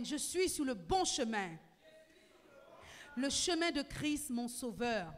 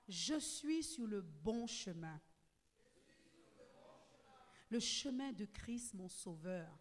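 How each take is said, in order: First: Je suis sur le bon chemin declared loud and full; loud preaching declaration; loud proclamation. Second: Je suis sur le bon chemin said slowly and evenly, for all to repeat; slow, measured call to repeat; slow proclamation. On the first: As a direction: proclaim it loudly to the whole church. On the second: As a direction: lead the phrase slowly so the church can follow. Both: Shown as a demonstration. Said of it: "Tu vas dire avec moi".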